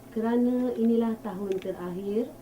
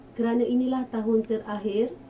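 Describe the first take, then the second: No difference in how they are said.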